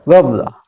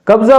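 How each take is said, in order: First: कब्जा with the Arabic sound; Arabic pronunciation. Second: कब्जा the usual Urdu way; Urdu pronunciation. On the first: Teacher shows Arabic pronunciation of कब्जा. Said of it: "pronunciation में थोड़ा सा फ़र्क है". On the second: Teacher gives the Urdu कब्जा. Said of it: "उसको बोलते हैं कब्जा". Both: Shown as a demonstration.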